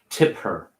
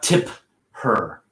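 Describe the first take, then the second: First: The p is soft and runs into her. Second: The p is released strongly before her. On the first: The speaker calls it right. "If I put it in a sentence, it's going to be less pronounced" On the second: The speaker calls it wrong. "Not tip her"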